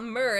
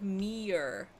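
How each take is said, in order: First: "mirror" shortened to one syllable, "mur"; the rejected American pronunciation "mur" for "mirror". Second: "mirror" stretched slowly into "mee-er"; drawn-out pronunciation "meer" for "mirror"; "mirror" as "meyer". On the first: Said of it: "It's not mirror, it's like". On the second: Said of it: "Like M E Y E R". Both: Shown as a demonstration.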